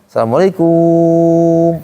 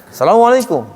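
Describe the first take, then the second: First: High, slow, KUM held on one long note; long final KUM. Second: High, arching Arab-style salam falling at the end; Arab greeting intonation. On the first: Teacher mimics local people greeting, KUM drawn out. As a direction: stretch out the KUM of Assalamualaikum, level. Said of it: "panjang kunya". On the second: Teacher imitates Arabs' greeting tone, high Arab lilt. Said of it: "dia nadanya". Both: Shown as a demonstration.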